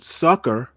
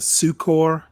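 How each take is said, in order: First: It is said exactly like the word 'sucker'. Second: It is said so it differs from 'sucker'. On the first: The speaker calls it wrong. "That's how Google pronounces it" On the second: The speaker calls it right. "That's how I've always pronounced it"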